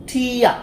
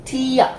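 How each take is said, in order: Both takes have the same delivery.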